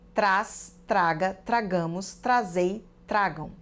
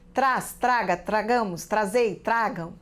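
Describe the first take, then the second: First: It is read at a normal pace. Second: It is read very fast.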